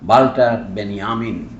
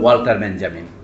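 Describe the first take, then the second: First: The name is said with German sounds. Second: The name is said with English sounds.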